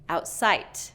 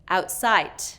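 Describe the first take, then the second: First: The final D is released voiceless. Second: The same.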